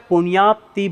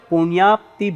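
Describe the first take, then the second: Both takes have the same delivery.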